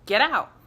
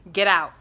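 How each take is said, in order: First: Louder, insistent repeated order; firm command. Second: Loud, sudden retold command; sharp command. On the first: Retold or imitated. Medium insisting she get out, loud firm command. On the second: Medium snapping his eyes open at her, loud command. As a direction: bark it like a sudden warning.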